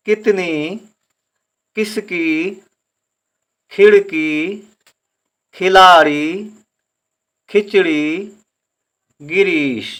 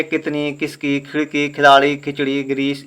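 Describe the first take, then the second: First: Beginner's reading, two letters together, last one held; learner's split reading. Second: Easy connected reading without breaking words up; fluent easy reading. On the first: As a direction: sound out each word in chunks, pausing between words. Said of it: "दो अक्षर आप एक साथ में उच्चारण करें, तीसरा अक्षर बाद में". (सीखने वालों की तरह तोड़-तोड़कर) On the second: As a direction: run through the list smoothly, words whole. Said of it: "बाद में तो आप बड़े आराम से पढ़ते जाएंगे". (आराम से, बिना अटके पढ़ते हुए) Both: Shown as a demonstration.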